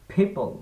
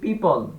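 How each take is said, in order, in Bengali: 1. প্রথম ব্যঞ্জনে বাতাসের ধাক্কা আছে। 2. প্রথম ব্যঞ্জনে বাতাসের ধাক্কা নেই। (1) "এটার শুদ্ধ উচ্চারণটা হবে পিপল" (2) "যেমন আমরা বলি পিপল সাধারণত"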